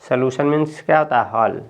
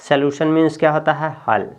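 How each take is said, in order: No difference in how they are said.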